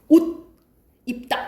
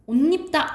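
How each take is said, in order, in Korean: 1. 두 단어는 이어지지 않고 따로 발음해요. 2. 두 단어를 이어서 발음하면서 ㄴ 소리를 더해요. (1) "각각 발음하면 옷 입다 이렇게 되잖아" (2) "연달아 발음했을 때 옷 입다 이렇게 된다"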